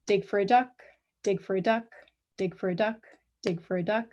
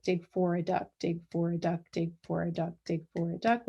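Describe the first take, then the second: First: "duck" lands early, then a pause before each repeat; quick "dig for a duck", short rest, repeat in steady rhythm; rhythmic cycled repetition. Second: "duck" lands late, running straight into the next "dig"; steady metronomic chant, no gap after "duck"; rhythmic cycled repetition. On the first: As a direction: chant it evenly with a gap after every "duck". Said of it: "where duck occurs a third of the way". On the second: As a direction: stretch "dig for a duck" evenly, repeats back to back without rests. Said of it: "with duck two-thirds of the way".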